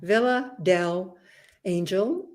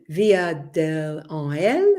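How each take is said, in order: First: The name is said with English-style sounds. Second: The name is said with Spanish-style sounds. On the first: The speaker calls it wrong. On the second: The speaker calls it right.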